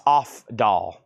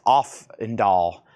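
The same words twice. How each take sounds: First: "Ofdahl" as off-doll, no n; "Ofdahl" split into OFF and DOLL; name as spelt, OFF-doll. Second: "Offendall" as off-en-doll; "Offendall" in three parts, off-en-doll; name with added n. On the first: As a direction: say "Ofdahl" slowly in two parts, off, doll. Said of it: "Her last name is". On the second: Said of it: "looks like it would be pronounced". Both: Shown as a demonstration.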